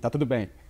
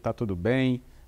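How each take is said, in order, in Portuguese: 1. Tem entonação plana, de rotina. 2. Tem entonação genuína, de interesse.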